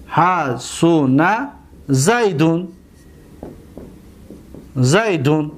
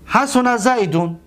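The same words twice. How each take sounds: First: Drawn-out syllables with pauses, lower pitch; measured word-by-word dictation; slow dictation. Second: Said in the usual way. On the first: Shown as a demonstration. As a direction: say it slowly for students writing it down. Dictating the example slowly.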